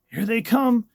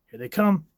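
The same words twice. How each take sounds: First: Higher, louder alarmed cry; urgent shout. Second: Rising, louder urgent call; tense warning. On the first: Reader voicing the panel, now shouting in alarm. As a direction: yell the warning at its peak. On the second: Reader voicing the panel, calling out a rising warning. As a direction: warn that they're coming, building. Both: Acted.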